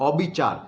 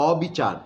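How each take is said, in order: The two takes are said the same way.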